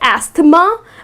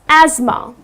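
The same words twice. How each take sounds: First: Every letter is sounded as spelled. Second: Not every letter is sounded as spelled. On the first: The speaker calls it wrong. "because the way it's spelled, people tend to pronounce it incorrectly. People tend to say asthma" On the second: The speaker calls it right. "The correct pronunciation is asthma"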